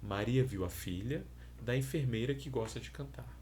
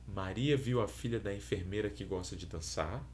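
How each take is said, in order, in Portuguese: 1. Há uma pausa depois de filha. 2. A frase é dita sem pausa. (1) "com uma pausa após o primeiro elemento" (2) "ela pode ser apresentada sem pausa"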